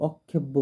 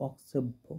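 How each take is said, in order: First: অক্ষেব্য as many say it, "kkh" for "ks"; common mispronunciation. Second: অক্ষেব্য with an s after the k; correct pronunciation. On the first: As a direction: say অক্ষেব্য with a doubled "kkh", as "okkhebbo". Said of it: "এইখানে অনেকজনে অক্ষেব্য বলে". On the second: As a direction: say অক্ষেব্য with a clear "ks", as "oksebbho". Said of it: "কিন্তু actually এটা অক্ষেব্য". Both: Shown as a demonstration.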